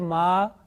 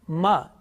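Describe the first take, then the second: First: The vowel is drawn out for a longer time. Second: The vowel is held briefly, about one count. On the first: The speaker calls it wrong. "it's wrong because this is long vowels" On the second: The speaker calls it right. "is it right?"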